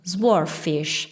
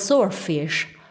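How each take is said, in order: First: It is said with Italian-sounding vowels and rhythm. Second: It is said with a standard English pronunciation. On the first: The speaker calls it wrong. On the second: The speaker calls it right.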